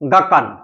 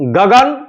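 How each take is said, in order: First: The second consonant is a voiceless k sound. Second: The second consonant is a voiced g sound. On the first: This is how the Paishachi language says it. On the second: This is the usual form of the word.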